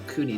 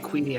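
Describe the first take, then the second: First: The first vowel sounds like 'oo'. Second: The first vowel sounds like 'ee'. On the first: This is the other host's way of saying the name. "I think you say Cooney" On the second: This is the speaker's own way of saying the name. "I say Queenie"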